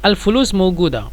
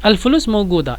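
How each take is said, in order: The two takes are said the same way.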